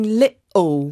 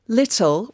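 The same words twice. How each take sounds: First: The middle t is a glottal stop. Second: The middle t is a full t sound. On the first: "which is what's called your glottal" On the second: "instead of saying little"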